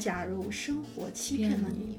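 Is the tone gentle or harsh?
gentle. It is said in a gentle, soft tone.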